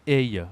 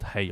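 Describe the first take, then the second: First: "hey" with a silent h; French pronunciation. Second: "hey" with the h pronounced; English h sounded. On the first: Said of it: "we don't say the H much". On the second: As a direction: breathe a clear h at the start of "hey". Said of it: "and not hey". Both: Shown as a demonstration.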